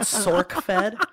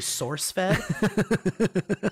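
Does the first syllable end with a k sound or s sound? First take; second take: k sound; s sound. First: The first syllable ends with a k sound. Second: The first syllable ends with an s sound. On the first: The speaker calls it wrong. "not SorkFed" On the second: The speaker calls it right. "it's actually SourceFed"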